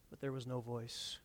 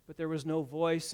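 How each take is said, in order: First: Hushed repeat. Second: Said in the usual way. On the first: A narrator's reading. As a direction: let it fall silent with weight. Repeating the line for weight.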